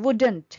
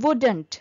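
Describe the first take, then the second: The two takes are said the same way.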